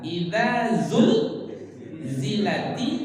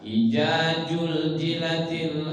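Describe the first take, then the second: First: The words are said with clear z sounds. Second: The z sounds are replaced with j. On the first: The speaker calls it right. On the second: The speaker calls it wrong.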